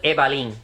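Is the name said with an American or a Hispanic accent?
Hispanic. The name is said with a Hispanic accent.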